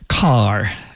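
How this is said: The vowel is an ah sound, Istanbul style.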